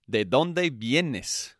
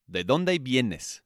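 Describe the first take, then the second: First: Slow model phrase. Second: Said in the usual way. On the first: Shown as a demonstration. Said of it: "teacher models the phrase slowly". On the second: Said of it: "repeats the phrase for learners".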